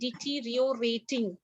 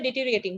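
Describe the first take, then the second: First: The word is said slowly, syllable by syllable. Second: The word is said fast and run together. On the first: It shows how the word is spelled. "just for the spelling, I am saying deteriorating" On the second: It is how people say it in conversation. "people say deteriorating ... It is very fast when it comes to pronunciation"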